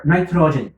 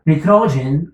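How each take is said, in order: First: Nitrogen with first syllable like "night"; second pronunciation. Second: Nitrogen with first syllable like "knee"; first pronunciation. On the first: Teacher giving students the second accepted way, nitrogen said NIGH-tro-jen. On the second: Teacher giving students one of two accepted ways, nitrogen said NEE-tro-jen. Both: Shown as a demonstration. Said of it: "It has two pronunciations".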